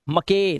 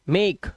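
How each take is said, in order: First: The final e is pronounced as a vowel. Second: The final e is silent. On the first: The speaker calls it wrong. "मके नहीं" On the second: The speaker calls it right. "क्योंकि last का ई silent है"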